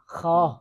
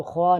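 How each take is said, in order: First: خواہ said as khaah, the w left silent; teacher models the correct خواہ. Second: خواہ said with a spoken w, like khwaah; the version to avoid, w sounded; wrong with the w sound. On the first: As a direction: say خواہ as plain khaa with no w. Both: Shown as a demonstration. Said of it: "اس کو خواہ نہیں پڑھنا".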